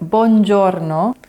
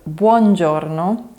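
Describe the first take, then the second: First: The U vowel is dropped, sounding like bongiorno. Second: The U vowel is clearly pronounced before the o. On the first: The speaker calls it wrong. "saying buongiorno instead of" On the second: The speaker calls it right. "instead of buongiorno"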